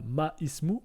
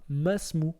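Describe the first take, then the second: First: The 'i' vowel is pronounced separately after 'ma'. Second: The 'i' vowel is silent and 'ma' links straight to 's'. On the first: The speaker calls it wrong. "on ne dit pas ma ismou" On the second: The speaker calls it right. "mais on va dire masmou"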